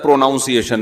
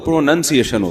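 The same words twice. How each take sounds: First: The second syllable sounds like 'noun'. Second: The second syllable sounds like 'nun'. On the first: The speaker calls it wrong. "हमारे उस्ताद ने बताया था" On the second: The speaker calls it right. "प्रोनाउंसिएशन जब होगा तो प्रोनाउंसिएशन होता है"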